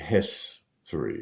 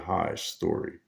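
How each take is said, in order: First: The first vowel is short, as in 'hit'. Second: The first vowel is long, as in 'high'. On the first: This is the usual taught pronunciation. "which we're taught to pronounce history" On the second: The spelling's hidden 'high story' becomes audible. "if we said the I with the I sound vowel"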